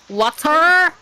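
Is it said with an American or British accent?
American. It is said in an American accent.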